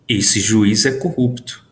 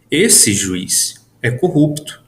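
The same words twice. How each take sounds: First: Esse juiz é corrupto. read as one statement; no pauses. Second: Esse, pause, juiz, pause, é corrupto read slowly; pause around juiz. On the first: Teacher reading Esse juiz é corrupto. as a plain claim. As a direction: state it in one flowing line. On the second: Teacher reading Esse, juiz, é corrupto as a vocative. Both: Shown as a demonstration. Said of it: "Percebo que a entonação".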